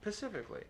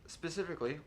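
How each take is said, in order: First: The word begins with a 'p' sound, no 's'. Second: The word begins with a clear 's' sound.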